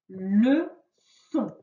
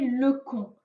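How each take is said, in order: First: The middle consonant is a hissing s sound. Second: The middle consonant is a hard k sound. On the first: The speaker calls it right. "Pour que ça fasse donc le S" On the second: The speaker calls it wrong. "si on avait mis le C tout seul, sans ça la cédille, ça aurait fait"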